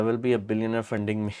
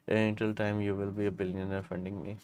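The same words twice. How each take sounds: First: Said in the usual way. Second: Much softer, muttered-off repeat of the joke. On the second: Real, not acted. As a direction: say it again under your breath. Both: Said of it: "joke repeated softly after".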